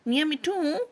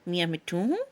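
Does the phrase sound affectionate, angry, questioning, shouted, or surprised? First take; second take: angry; questioning. First: It is said in an angry tone. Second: It is said in a questioning tone. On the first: "गुस्से में" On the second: "इस मर्तबा लहजा सवालिया होता"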